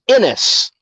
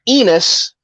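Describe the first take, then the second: First: The name is pronounced like Ennis. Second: The name is pronounced like Enos. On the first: The speaker calls it right. "it's Ennis" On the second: The speaker calls it wrong. "it is not Enos"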